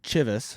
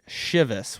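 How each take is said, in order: First: The word begins with a hard 'ch' sound. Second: The word begins with a soft 'sh' sound. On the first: "I said Chivas for all of the last episode" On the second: "a lot of people online seem to pronounce it Chivas"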